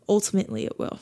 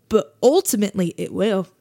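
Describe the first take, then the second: First: Softer, falling repeat; quiet falling restatement; soft echo. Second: Said in the usual way. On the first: Real, not acted. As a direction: let it settle quietly. Quiet echo of own phrase.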